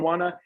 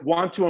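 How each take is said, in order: First: The T sounds are left out. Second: The T sounds are pronounced clearly.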